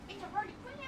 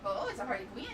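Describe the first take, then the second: First: High cooing pet voice. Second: Said in the usual way. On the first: Real, not acted.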